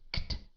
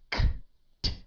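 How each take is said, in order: First: The k and t are blended together. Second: The k and t are said apart. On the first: The speaker calls it right. "but you say kt" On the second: The speaker calls it wrong. "You don't say"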